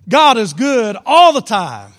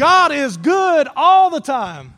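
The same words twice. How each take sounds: First: Loud, slow, rousing call to the crowd; preacher fires up the congregation with a loud call; enthusiastic call. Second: Preacher fires up the congregation for the response; enthusiastic shout. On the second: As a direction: shout it out slowly, louder and higher. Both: Shown as a demonstration. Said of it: "say it enthusiastically".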